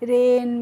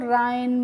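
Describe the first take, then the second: First: The vowel sounds like 'ay'. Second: The vowel sounds like 'eye'. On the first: The speaker calls it right. "कैसे करना है बच्चों" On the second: The speaker calls it wrong. "इस तरीके से नहीं pronounce करना है"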